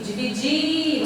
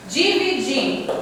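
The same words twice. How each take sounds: First: DIVIDIR with the last syllable DIR held long; stretched final syllable. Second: Said in the usual way. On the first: Shown as a demonstration. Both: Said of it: "você demora mais a pronúncia".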